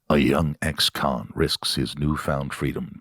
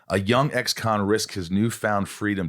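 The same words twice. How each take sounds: First: It is read in a dramatic put-on voice. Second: It is read in an ordinary speaking voice. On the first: "You could do that one in the voice" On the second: "I'll just read what it is"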